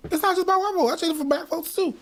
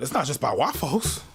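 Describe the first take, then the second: First: "It's not just by white folks" pitched far higher, "not" hit hard; insisting it's "not" just by white folks; emphatic repeat. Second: Said in the usual way. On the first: Real, not acted. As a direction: push "not" up high and insist. Repeats the phrase with rising force.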